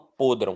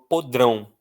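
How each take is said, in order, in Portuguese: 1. A força não está na última sílaba. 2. A força está na última sílaba. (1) "Eu não falo podrão" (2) "A força está no drão, está na última"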